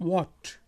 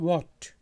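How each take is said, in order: The two takes are said the same way.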